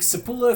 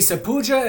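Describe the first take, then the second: First: The double L is said as an L. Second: The double L is said the Spanish way. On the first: The speaker reads the name as it is written. "if you're from Atlas and you just want to say the double" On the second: The speaker follows Spanish pronunciation rules. "if you're a Spanish speaker from the European continent"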